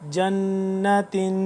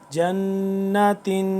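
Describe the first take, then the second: Both takes have the same delivery.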